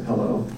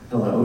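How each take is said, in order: First: Lightly voiced gruff trooper; a hint of a stern, deep-voiced caller. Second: Said in the usual way. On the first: Stern caller opening a fundraising phone call, mildly gruff. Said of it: "very deep, gruff voice". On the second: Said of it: "And I said".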